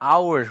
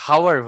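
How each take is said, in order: First: The word starts with a vowel, no h. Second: The word starts with an audible h sound. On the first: The speaker calls it right. "এইস এর উচ্চারণটা আওয়ার হচ্ছে" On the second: The speaker calls it wrong. "হাওয়ার হচ্ছে না"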